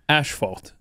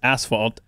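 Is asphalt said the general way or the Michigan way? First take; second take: Michigan; general. First: It is said with a Michigan regional pronunciation. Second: It is said with a general American pronunciation.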